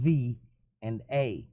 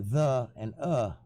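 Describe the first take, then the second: First: The small words are said in full form. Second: The small words are said in reduced form. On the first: It sounds like someone reading aloud. The speaker calls it wrong. "it sounds like a robot reading" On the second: It sounds like natural talking. The speaker calls it right. "people say the and uh when they talk"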